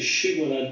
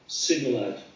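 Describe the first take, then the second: First: The word begins with an 'sh' sound. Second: The word begins with an 's' sound. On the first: The speaker calls it right. "They couldn't say Shibboleth" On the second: The speaker calls it wrong. "but say Sibboleth"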